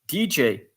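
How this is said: The letters are spoken with English letter names. The speaker calls it right. "I advise to pronounce it in English"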